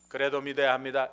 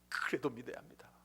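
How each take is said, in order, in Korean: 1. 감정 없이 무미건조하게 말합니다. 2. 간절하고 애원하는 감정을 담아 말합니다. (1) "이렇게는 아무 의미가 없어요" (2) "하나님 아버지의 간절한 마음을 실는 거예요"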